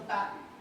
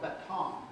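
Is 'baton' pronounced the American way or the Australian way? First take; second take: Australian; American. First: The word is said with an Australian pronunciation. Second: The word is said with an American pronunciation. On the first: The speaker calls it right. "No, it's a baton. That's the right way to say it" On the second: The speaker calls it wrong. "in America, you call it baton"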